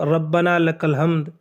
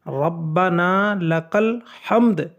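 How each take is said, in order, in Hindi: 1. यह वाक्य बहुत जल्दी-जल्दी बोला जाता है। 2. यह वाक्य धीरे और सावधानी से कहा जाता है। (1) "इतनी जल्दी करते हैं" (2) "ये पूरा सही तलफ़ुज़ है"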